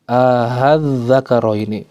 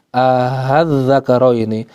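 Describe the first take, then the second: No difference in how they are said.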